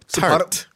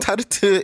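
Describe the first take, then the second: First: It is said with an American pronunciation. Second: It is said with a Korean loanword pronunciation. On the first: Listeners in America would understand it. The speaker calls it right. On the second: Listeners in America would be confused. The speaker calls it wrong.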